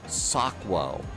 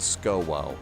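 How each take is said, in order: First: The name begins with the sounds 'sok'. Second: The name begins with the sounds 'sko'. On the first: The speaker calls it right. "I'm mispronouncing it" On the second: The speaker calls it wrong. "not SCOWO"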